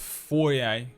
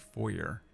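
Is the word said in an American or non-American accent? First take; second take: non-American; American. First: It is said in a non-American way. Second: It is said in an American way.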